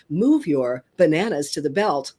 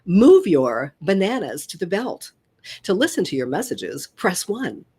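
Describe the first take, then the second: First: Lower, even checkout machine prompt; automated voice. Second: Announcement voice of a self-checkout machine; crisp recorded prompt voice; automated voice. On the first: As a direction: read it like a recorded store announcement. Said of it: "you hear". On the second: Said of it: "I was the very first automated voice". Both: Shown as a demonstration.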